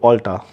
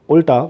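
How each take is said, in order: First: The first vowel is an 'ah' or 'o' sound. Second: The first vowel is an 'uh' sound. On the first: It is how the store is actually called. "this is called Alta ... it should start with O" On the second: It follows the spelling with U. "Any phonetically correct person will pronounce it at Ulta because it is U L T A"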